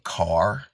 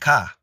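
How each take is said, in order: First: The word ends with a clear r sound. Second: The word ends without an r sound. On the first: This is the usual standard form. "they don't say car" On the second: This is the Caribbean form. "they say ka. And we spell it the same way, C A H"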